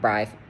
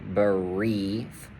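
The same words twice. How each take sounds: First: The vowel is pronounced as something other than E. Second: The vowel is pronounced as a long E. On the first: The speaker calls it wrong. "not brief" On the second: The speaker calls it right. "it's going to be a long E"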